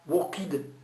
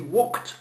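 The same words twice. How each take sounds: First: The ending is said as a separate 'ed' syllable. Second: The ending is said as a plain 't' sound. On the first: The speaker calls it wrong. "on ne dit pas walked" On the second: The speaker calls it right. "On dit walked. W O K T"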